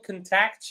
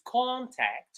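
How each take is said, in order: First: The stress is on the second syllable. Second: The stress is on the first syllable. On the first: It is used as a verb. "This is as a verb" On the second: It is used as a noun. "which is as a noun"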